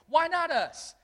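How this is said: It sounds like a determined, confident exclamation.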